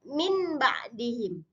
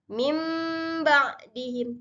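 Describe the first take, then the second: First: The first word ends in a plain n sound. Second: The first word ends in a nasal m sound. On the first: The speaker calls it wrong. "tidak min ba'dihim" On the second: The speaker calls it right. "Jadi mim ba'dihim"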